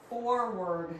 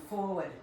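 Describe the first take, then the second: First: "Forward" drawn out with full R sounds; corrected pronunciation. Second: Slight Rhode Island accent on "forward". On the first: Shown as a demonstration. Trainer corrects her own Rhode Island slip, careful pronunciation. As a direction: say "Forward" slowly, both R's fully pronounced. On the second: Real, not acted. Trainer slips into her home accent cueing a move, Rhode Island accent. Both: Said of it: "That sounded very Rhode Island".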